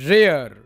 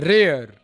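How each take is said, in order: Both takes have the same delivery.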